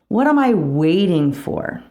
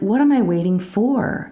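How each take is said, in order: First: The stress is on "waiting". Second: The stress is on "for".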